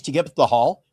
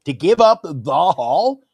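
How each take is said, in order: First: Said in the usual way. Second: "the Hall" slowed and set apart; emphatic repeat. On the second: Real, not acted. Co-host pitching a Yankees trade, slow and emphatic. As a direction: stretch out "the Hall" with weight.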